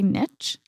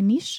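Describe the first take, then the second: First: It is said with the American pronunciation. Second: It is said with the French pronunciation. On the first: The speaker calls it wrong. "Americans say niche" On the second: The speaker calls it right. "Say niche, en like français"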